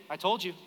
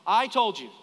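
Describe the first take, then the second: First: Said in the usual way. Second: "I told you" louder, with weight on "I"; retold parental "I told you", punched hard; emphatic repeat. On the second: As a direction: drive home "I told you" loudly.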